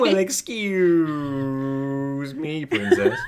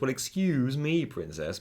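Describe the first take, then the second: First: The words are stretched out and drawn long. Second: The words are said at a normal length. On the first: This is the exaggerated meme version. The speaker calls it wrong. "He wouldn't say it like that" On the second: This is how the character actually said it. The speaker calls it right. "He goes"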